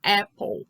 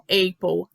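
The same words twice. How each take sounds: First: "apple" with an open æ, AE-pol; correct vowel. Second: "apple" starting on ay, AY-pol; wrong pronunciation. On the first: Teacher corrects learners' vowel, "apple" with open æ. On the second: Teacher warns learners against this, "apple" as AY-pol. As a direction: say "apple" with a closed e vowel. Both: Shown as a demonstration. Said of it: "Não apple".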